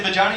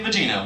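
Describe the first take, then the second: First: "vagina" said as vuh-JY-nuh, rising; "vagina" with a long i in the middle. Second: "vagina" said as vuh-JEE-nuh; "vagina" with a long ee in the middle. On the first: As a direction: say "vagina" rhyming with China. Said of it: "I say vagina". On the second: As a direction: say "vagina" rhyming with Gina. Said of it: "you say vagina". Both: Acted.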